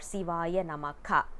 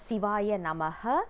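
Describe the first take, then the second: First: The last word ends with an added 'ka' syllable. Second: The last word ends with an added 'ha' syllable. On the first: "We are not supposed to uh, pronounce it as" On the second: "We are not supposed to uh, pronounce it as"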